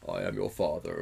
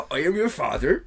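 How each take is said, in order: First: Low, deep film villain impression; measured deep-voiced villain mimicry; James Earl Jones. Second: Loud, high-pitched West Country accent impression; mock villain in a rural West Country accent; hammed-up West Country mimicry, pitched up; David Prowse. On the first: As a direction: drop the pitch for a grave, iconic line. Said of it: "we all know the". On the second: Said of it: "that's what he sounded like".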